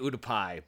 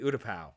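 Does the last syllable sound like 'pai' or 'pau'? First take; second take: pai; pau. First: The last syllable sounds like 'pie'. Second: The last syllable sounds like 'pow'. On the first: The speaker calls it wrong. "I want to always say Utapai" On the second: The speaker calls it right. "but anyway"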